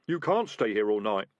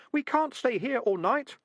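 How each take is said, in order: First: Urgent. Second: Much higher, slow squeaky rat chorus; a crowd of rats chanting back; rats' chorus. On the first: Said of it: "said the highwayman urgently". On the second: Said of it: "a chorus of voices from his trousers". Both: A narrator's reading.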